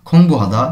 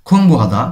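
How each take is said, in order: The two takes are said the same way.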